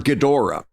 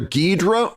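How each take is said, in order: First: The name is said with three syllables. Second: The name is said with two syllables. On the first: "three syllable" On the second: "two syllable"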